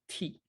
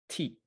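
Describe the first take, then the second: No difference in how they are said.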